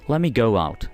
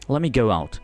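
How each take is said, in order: The two takes are said the same way.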